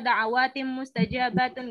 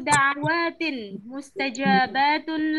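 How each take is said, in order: First: The n merges nasally into the next word. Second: The n is kept separate from the next word. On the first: The speaker calls it wrong. "nggak usah diidghamkan ya teman-teman ya, nggak usah dibaca gitu" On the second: The speaker calls it right. "dibaca masing-masing"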